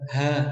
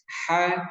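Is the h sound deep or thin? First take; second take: deep; thin. First: The h sound is deep and bass-like. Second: The h sound is thin and light. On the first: The speaker calls it wrong. "Contoh salahnya ha, ha. Nah, itu tidak boleh" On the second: The speaker calls it right. "Karena ini haknya tipis"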